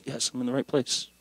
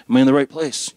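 First: Much softer aside to yourself; quiet self-answer. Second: Louder self-questioning; wondering aloud. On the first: Visitor reassuring himself at the church, quiet self-answer. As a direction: answer yourself under your voice. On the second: Visitor checking he has found the church, wondering aloud. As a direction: ask yourself aloud, in mild disbelief. Acts out doubting himself on arrival. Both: Retold or imitated.

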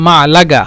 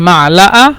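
First: মালাগা with a hard g before the final vowel; teacher's g-variant of মালাগা; dialect pronunciation. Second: মালাআ with no g, ending on a bare vowel; teacher's demo of মালাআ with the last vowel standing alone; dialect pronunciation. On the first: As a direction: sound the g clearly in মালাগা. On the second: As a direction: leave the g out of মালাআ. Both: Shown as a demonstration. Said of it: "অথবা".

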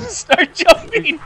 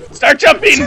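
First: Slow, laughing through the words. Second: Excited shout. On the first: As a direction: giggle while repeating it. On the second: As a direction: shout it out, urgent. Urging partner in game. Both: Real, not acted.

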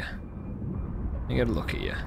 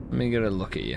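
First: Whispered, slow and low; soft whisper. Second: Said in the usual way. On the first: Acted. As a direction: breathe it out gently. Repeated softly, whispered.

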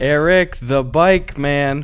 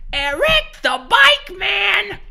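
First: Slow, drawn-out ad tagline; ad announcer. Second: High, slow jingle-style announcer; commercial announcer. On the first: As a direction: stretch it like a local commercial. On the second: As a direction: drag it out like a cheesy ad. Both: Retold or imitated. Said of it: "somebody just goes".

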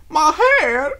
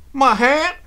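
First: High, loud, drawn-out wail; distraught wail. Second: High, loud, short question; startled question. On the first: Applejack finding her hat truly gone, wailing. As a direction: wail it as you burst into tears. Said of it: "Applejack burst into tears". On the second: Applejack hearing her hat is gone, startled and loud. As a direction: blurt it out in alarmed disbelief. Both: A narrator's reading.

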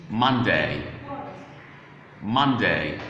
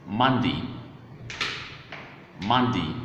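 First: "Monday" said as "MUN-day"; full-ending pronunciation. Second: "Monday" said as "MUN-dee"; reduced-ending pronunciation. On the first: Teacher returning to the main pronunciation for learners, full "day" ending. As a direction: end "Monday" in a full "day", not "dee". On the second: Teacher showing learners the other pronunciation, short "dee" ending. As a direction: end "Monday" in a short "dee" instead of "day". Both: Shown as a demonstration. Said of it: "Monday can also be pronounced".

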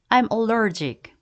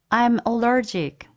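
No difference in how they are said.

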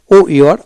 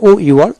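Both takes have the same delivery.

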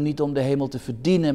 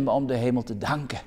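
First: Verdienen pressed hard and falling; stress on verdienen. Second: Om lifted with a rise, the rest quick and soft; stress on om. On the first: Preacher to the congregation, stressing verdienen. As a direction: lean on verdienen, then let it drop. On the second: Preacher to the congregation, contrasting om in a soft rise. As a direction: hit om, then soften danken. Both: Shown as a demonstration.

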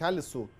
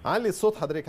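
First: Said in the usual way. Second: Louder and higher over a bad line; to someone hard of hearing. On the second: Real, not acted. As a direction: speak up for the caller. أنا مش سامعة كويس.

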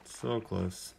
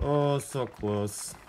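First: Said in the usual way. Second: Slow, drawn-out groan of disappointment; disappointed. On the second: Real, not acted. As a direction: stretch it out, gutted. Ball just misses the hole.

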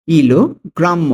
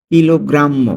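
First: Slow, higher "কিলোগ্রাম্য", split after "kilo"; slow teaching take of "কিলোগ্রাম্য" in two parts; broken into parts. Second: Said in the usual way. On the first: Shown as a demonstration. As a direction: say "kilo", pause, then "grammo". Teacher repeats word by parts.

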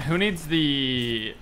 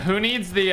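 First: Words stretched out slowly while thinking; slow, drawn out. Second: Said in the usual way. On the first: Real, not acted. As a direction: drag the words out, searching for them.

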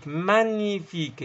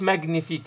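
First: "مانيفيك" slowly, gn as one ny sound; silent g pronunciation. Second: "ماغنيفيك" with g and n sounded separately; hard g pronunciation. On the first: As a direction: draw out "مانيفيك" with ny and no hard g. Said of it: "الجي والإن بصير الني". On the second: Teacher showing students the mistaken reading, g sounded. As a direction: say "ماغنيفيك" with an audible g before n. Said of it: "لأنها مش". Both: Shown as a demonstration.

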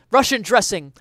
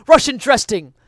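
The two takes are said the same way.

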